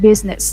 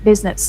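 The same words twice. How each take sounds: No difference in how they are said.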